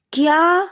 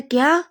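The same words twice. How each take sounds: First: Very high, loud shocked "क्या?"; loud yell. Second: A sudden shocked "क्या?", higher and louder; stunned question from the younger lover. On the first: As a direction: scream it in total disbelief. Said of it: "वो बहुत तेज चिल्लाता है". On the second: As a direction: gasp the word out in disbelief. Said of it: "विंग तो पूरी तरीके से shock था". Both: Acted.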